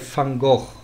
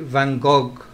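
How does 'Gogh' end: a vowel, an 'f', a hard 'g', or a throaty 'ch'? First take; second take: throaty ch; hard g. First: 'Gogh' ends with a throaty 'ch' sound. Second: 'Gogh' ends with a hard 'g' sound. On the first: This is the Dutch way, as the painter said it. "So you'd say Van Gogh, not Van and not Fun" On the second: This is how French people say it. "The French say Van Gogh"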